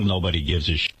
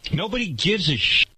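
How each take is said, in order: First: Dropped much lower, a muttered aside; low dismissive mutter. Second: Said in the usual way. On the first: Shown as a demonstration. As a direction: toss it off low under your breath. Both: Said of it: "Give him a channel".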